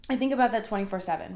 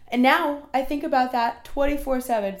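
First: Said in the usual way. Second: Yawning mid-sentence; words stretched by a yawn. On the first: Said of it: "Hold on". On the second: Real, not acted. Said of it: "Sorry, I'm yawning".

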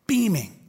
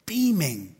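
No difference in how they are said.

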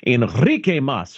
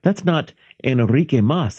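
First: Enrique Mas with a Spanish flourish; Spanish accented name. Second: Said in the usual way. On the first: Acted. Correcting who is who in a sitcom retelling, Spanish accented name. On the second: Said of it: "And she says".

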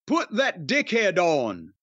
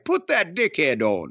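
First: Put-on Bradford accent. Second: Lightly voiced Bradford accent; a hint of a Yorkshire wife from Bradford; mock Bradford English accent. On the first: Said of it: "I did the accent 'cause they're from Bradford". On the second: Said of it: "That's a Bradford accent, right?".

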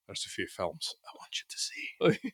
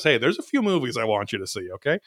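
First: Whispered, soft lightly Scottish line; a hushed, half-hearted Scottish try; Scottish accent. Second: Said in the usual way. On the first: Retold or imitated. Guy recommending films, redone in a whispered Scottish accent. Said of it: "but with a Scottish accent". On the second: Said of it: "some guy goes".

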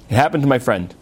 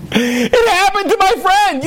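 First: Dry echo. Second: Indignant outburst. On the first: Shown as a demonstration. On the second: Retold or imitated. Rabbi to cab driver, indignant shout. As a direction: throw his own words back at him.

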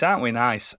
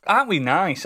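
First: Said in the usual way. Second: Higher self-pleased question; high smug. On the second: Shown as a demonstration.

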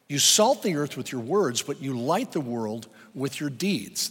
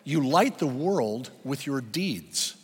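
First: "salt" then "light" each hit firmly; stress on salt and light. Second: Slow, with light and deeds leaned on; "light" stressed slowly and firmly. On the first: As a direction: punch "salt" against "light". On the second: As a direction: spell it out slowly for note-taking. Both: Shown as a demonstration. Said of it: "you can write this down".

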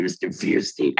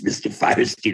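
First: Fierstein beginning like the word "fear"; rival surname pronunciation. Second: Firestein beginning with the word "fire"; introduced by surname. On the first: Recalling meeting introductions of two brothers, Fierstein pronounced FEER-steen. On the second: Recalling meeting introductions of two brothers, Firestein pronounced FIRE-steen. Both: Shown as a demonstration. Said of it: "being introduced as".

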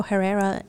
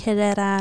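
First: "Herrera" with sounded H and American R; English-mode pronunciation. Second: "Herrera" with silent H and Spanish R sounds; Spanish pronunciation. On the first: Slipping into English mode at work, English pronunciation. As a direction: say "Herrera" the English way, huh-RAIR-uh. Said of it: "in my English mode". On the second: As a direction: say "Herrera" as in Spanish, eh-REH-rah. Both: Shown as a demonstration.

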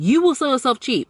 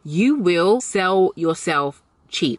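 First: Said in the usual way. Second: Very slow, deliberate repeat; emphatic warning. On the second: Shown as a demonstration. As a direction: drag it out word by word.

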